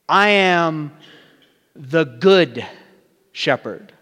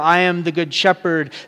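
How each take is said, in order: First: The stress falls on the word good. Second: The stress falls on the word shepherd. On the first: The speaker calls it right. "Listen to how this reads differently" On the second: The speaker calls it wrong. "the emphasis doesn't go on the shepherd"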